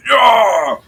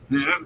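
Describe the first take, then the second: First: Loud, high macho yell; hyped shout. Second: Said in the usual way. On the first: Acted. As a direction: bellow it like a showing-off strongman. Dwarf NPC taunting at fruit cart.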